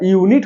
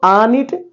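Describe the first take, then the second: First: The word begins with a 'yoo' sound. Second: The word begins with an 'ah' sound. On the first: The speaker calls it right. "यूनिट होता है शुद्ध" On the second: The speaker calls it wrong. "आनिट तो होगा नहीं"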